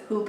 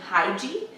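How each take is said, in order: First: The word is said the Danish way. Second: The word is said the anglicized way. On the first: The speaker calls it right. "the correct pronunciation of it was hygge" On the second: The speaker calls it wrong. "I think I've been mostly saying hygie"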